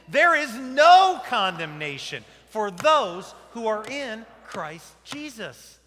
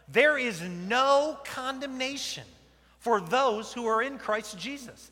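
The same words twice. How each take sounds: First: It is shouted loudly with high excited energy. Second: It is said at a calm, ordinary volume. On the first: "say it like you're not at church, but you're at a ball game, and you really mean it" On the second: "Let's say it together"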